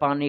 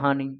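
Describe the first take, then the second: First: The word begins with a p sound. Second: The word begins with an h sound. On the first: This is how one region says it. "রাজশাহীতে বলে পানি" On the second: This is how another region says it. "এখানে বলে হানি"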